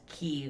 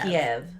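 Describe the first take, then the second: First: The name is said the Ukrainian way. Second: The name is said the Russian way. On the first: It stands with Ukraine. The speaker calls it right. "the Ukrainian is K Y I V, and it's pronounced Kyiv" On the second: It follows the Russian form. The speaker calls it wrong. "K I E V is Russian, and it's pronounced"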